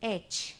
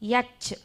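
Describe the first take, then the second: First: The letter name starts with a vowel sound. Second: The letter name starts with a y sound. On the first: The speaker calls it right. "I want an H" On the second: The speaker calls it wrong. "yach beda namige"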